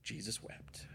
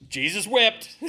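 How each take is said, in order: First: Very soft, near-whispered verse; hushed. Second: Raised, emphatic higher voice; loud recital. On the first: Preacher repeating the short verse to the congregation, hushed. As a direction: let it drop to a hush. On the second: Preacher answering his own Sunday school question, loud and high. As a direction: belt out the memorized verse. Prompted verse, said aloud then softly. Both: Real, not acted.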